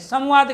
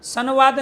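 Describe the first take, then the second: First: The nasal before v sounds like m. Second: The nasal before v sounds like n. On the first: The speaker calls it right. "संवाद कह रहे हैं" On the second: The speaker calls it wrong. "संवाद नहीं कह रहे हैं"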